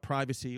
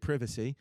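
First: The word is said with an American pronunciation. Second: The word is said with a British pronunciation.

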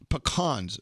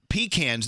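First: It is said so it doesn't sound like 'pee can'. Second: It is said to sound like 'pee can'. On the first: The speaker calls it right. "Pecans is how you say it" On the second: The speaker calls it wrong. "that's when you pee in a can"

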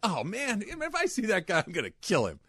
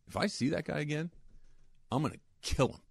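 First: The threat sounds light and exasperated, not meant. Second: The threat sounds cold and menacing, fully meant. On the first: It is just an expression of annoyance. "And not like" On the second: The speaker really intends to hurt him. "Not like that. Like"

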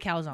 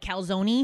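First: The word ends without a final vowel sound. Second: The final E sound is pronounced at the end. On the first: This is how New Jersey people say it. "It's a calzone" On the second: This is how West Coast people say it. "I think California people call it a calzone"

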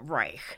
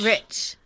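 First: The name is said with a long vowel, like rike. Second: The name is said with a short vowel, like rich. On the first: This is the pronunciation the family avoids. "they're trying to get away from Reich" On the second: This is how the family says the name. "I think they said Rich"

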